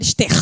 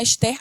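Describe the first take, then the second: First: Rio "Esther" ending on a strong, held R; Rio accent. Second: Said in the usual way. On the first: Shown as a demonstration. Preacher showing Rio speech, "Esther" with a strong carioca R. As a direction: draw out the final R of "Esther", carioca style. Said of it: "A gente vibra aquele R". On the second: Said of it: "a gente fala muito assim".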